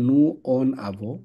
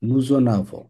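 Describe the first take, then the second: First: Nous and en are said separately, with no z. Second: A z sound links nous to en. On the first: The speaker calls it wrong. "Normally হওয়ার কথা নু অন আভো" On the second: The speaker calls it right. "এর জন্য বলতে হবে উই নুজন আভো"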